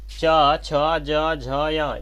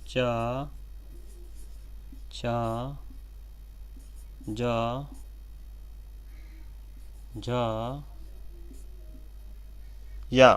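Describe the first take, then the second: First: च, छ, ज, झ, या in one quick, louder run; quick run-through. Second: च, छ, ज, झ, या one by one with long pauses; slow spaced recital. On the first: Teacher to students, the palatal letters in one quick run. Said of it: "इसकी जो आवाज़ निकल रही दोस्तों". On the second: Teacher to students, each palatal letter slowly. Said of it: "इसकी आवाज़ जो निकलती है तालु से निकलती है". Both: Shown as a demonstration.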